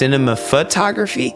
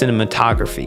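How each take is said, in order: First: It is said with an extra 'pho' syllable. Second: It is said without an extra 'pho' syllable. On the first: The speaker calls it wrong. "I've been saying this wrong my entire life. I thought it was pronounced cinema photography" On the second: The speaker calls it right. "No, it's it's pronounced cinematography"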